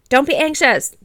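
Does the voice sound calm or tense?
tense. It is said in a sharp, tense voice. It makes the listener anxious. "That probably makes you anxious"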